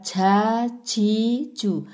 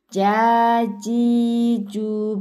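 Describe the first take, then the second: First: The j is said with a puff of breath. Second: The j is clear with no puff of breath. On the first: The speaker calls it wrong. "bukan jajiju" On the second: The speaker calls it right. "tidak ada hembusan nafas"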